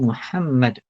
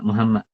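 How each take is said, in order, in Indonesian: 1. Bunyi h-nya keras, h tenggorokan yang dalam. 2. Bunyi h-nya ringan, h biasa yang berhembus. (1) "Dia sepatutnya Muhammad" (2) "Jangan uh, ha bulat tu, ha simpul. Tak boleh"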